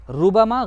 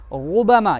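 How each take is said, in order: First: रुबमा said quickly with a thin, light R; wrong thin R. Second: रुबमा with a full, heavy R, drawn out; correct thick R. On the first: Teacher contrasting wrong against right, thin R. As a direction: say रुबमा without thickening the R. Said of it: "गलत है". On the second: Teacher showing pupils the right version, thick R. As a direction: round and thicken the R in रुबमा, slowly. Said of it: "ये सही है". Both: Shown as a demonstration.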